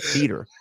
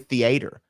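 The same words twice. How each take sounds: First: The word is said with a standard pronunciation. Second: The word is said with a Southern pronunciation.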